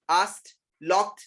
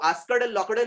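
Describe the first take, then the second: First: Asked locked as "aast, lokt"; one syllable each in Asked locked, final T; correct past endings. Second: Asked locked as "askad lokad"; wrong past endings. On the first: Teacher answering own question, Asked locked as "aast, lokt". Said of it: "क्या है वो?". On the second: Teacher rejecting the mistake, asked locked as "askad lokad". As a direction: give asked and locked a full extra "-ad" syllable. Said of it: "वो asked locked नहीं है". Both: Shown as a demonstration.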